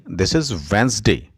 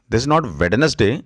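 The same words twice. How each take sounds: First: "Wednesday" as wenz-day, silent d; correct way. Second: "Wednesday" with every letter sounded, wed-ne-sday; wrong way. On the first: Teacher gives the right Wednesday, two syllables. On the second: Teacher shows the mistaken Wednesday with three syllables. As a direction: say "Wednesday" as spelt, d in the middle. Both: Shown as a demonstration.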